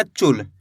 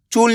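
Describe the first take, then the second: First: चूल said as चुल, short u, dropping much lower; short vowel. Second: चूल with a long, stretched u; drawn-out vowel. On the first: Teacher showing the correct reading, short-vowel चुल. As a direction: keep the u brief, as चुल. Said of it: "छोटू की मात्रा को कम खींच के पढ़ते हैं". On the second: Teacher warning students how not to read it, long-vowel चूल. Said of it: "चूल नहीं पढ़ना". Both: Shown as a demonstration.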